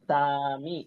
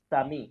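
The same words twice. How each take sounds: First: A vowel is drawn out with a long pull. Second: The vowels are said short, without drawing out. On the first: The speaker calls it wrong. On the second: The speaker calls it right.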